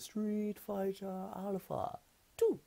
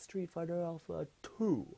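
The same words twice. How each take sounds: First: The word two is said in a high-pitched voice. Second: The word two is said in a normal pitch. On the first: The announcer was imagined saying it in a silly way. "say two in a really high pitched voice" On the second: The announcer actually said it in an ordinary way. "really average"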